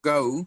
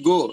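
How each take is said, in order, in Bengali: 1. স্বরধ্বনিটি 'a' থেকে 'u'-এর দিকে গড়িয়ে যায়। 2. স্বরধ্বনিটি একটানা, স্থির একটি 'o' ধ্বনি। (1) "সাউন্ড হবে গাউ" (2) "আমরা বলি গো"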